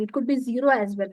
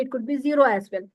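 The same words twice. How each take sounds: First: Said in the usual way. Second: The same words repeated fast; quick restatement. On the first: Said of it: "Okay, it could be zero as well". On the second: Shown as a demonstration. Lecturer repeating a point to students, faster. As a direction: rattle it off a second time, faster.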